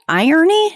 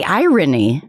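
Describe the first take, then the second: First: "Irony?" as EYE-ur-nee, higher and questioning; imitated pronunciation of irony. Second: "irony" in three clear syllables, EYE-rih-nee; own pronunciation of irony. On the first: Querying the guest's pronunciation, "Irony?" as a rising EYE-ur-nee. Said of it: "That's how you say it?". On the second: Shown as a demonstration. Showing the guest how she says it, "irony" as EYE-rih-nee. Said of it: "I say irony".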